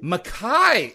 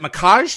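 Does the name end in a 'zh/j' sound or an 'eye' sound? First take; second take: eye sound; j sound. First: The name ends with an open 'eye' vowel sound. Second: The name ends with a j-like consonant sound. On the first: The speaker calls it right. "It's Makai, actually" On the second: The speaker calls it wrong. "Did I pronounce that right?"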